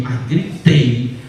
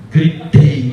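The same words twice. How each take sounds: First: "gritei" drawn out slowly and leaned on; stress on gritei. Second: Said in the usual way. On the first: Retold or imitated. Woman admits to the pastor she shouted hard, stretched out. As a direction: stretch "mas gritei" with a knowing weight. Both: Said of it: "Aí você gritou".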